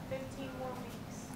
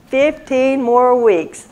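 First: Barely voiced whisper from the pews; a faint whispered reply. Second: Said in the usual way. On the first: Real, not acted. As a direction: whisper it almost silently. Voice from the room answers.

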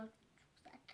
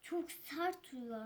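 First: Whispered "Çok sert", no voice. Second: Said in the usual way. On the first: Shown as a demonstration. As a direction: breathe "sert" softly.

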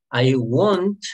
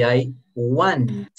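First: "want" said as won't, with a long rounded o; pronunciation of won't. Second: "want" slowly, with an open ah vowel; pronunciation of want. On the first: Teacher contrasting two easily confused words, "want" pronounced like won't. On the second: Teacher contrasting two easily confused words, "want" with an open vowel. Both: Shown as a demonstration. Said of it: "puede que lo confundamos con want".

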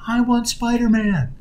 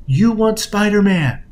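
First: Put-on high, drawn-out toddler yell; imitated child's yell. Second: High, loud and drawn-out, short of yelling; loud, forceful. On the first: Young son demanding his doll from his mom, mock yelling. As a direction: wail it slowly like a demanding small child. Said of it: "he's yelling at his mom". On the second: Retold or imitated. Mother leaning in to her son, loud forceful echo. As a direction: imitate a parent firmly echoing a child's demand. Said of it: "in that kind of forceful tone".

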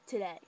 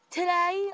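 First: Said in the usual way. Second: "Today?" jumped much higher and louder, rising; "Today?" as a shocked rising question; incredulous. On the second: Retold or imitated. Rachel hearing the anniversary answer, "Today?" high and shocked.

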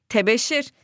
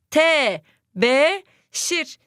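First: Said in the usual way. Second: "Tebeşir" drawn out very slowly, syllable by syllable; syllable-stretched reading. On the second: Shown as a demonstration. Teacher stretches the word slowly so pupils can spell it. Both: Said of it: "verilmeyen harfi bulacağız".

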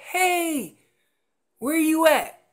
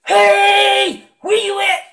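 First: Calling out. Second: Shouted high and hard, the wrong way to start; full shout of the caller who starts too loud; loud yell. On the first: Retold or imitated. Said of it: "a location bugle is just saying". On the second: Shown as a demonstration. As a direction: bellow it like a too-loud call. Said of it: "yell through your tube and say".

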